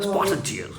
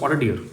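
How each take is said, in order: First: The word 'deer' begins with a j sound. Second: The word 'deer' begins with a d sound. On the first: This is how the local guides say it. "उनका जो accent है वो पूरी तरह से मतलब foreigners वाला है" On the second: This is how ordinary people say it. "हम लोग बोले"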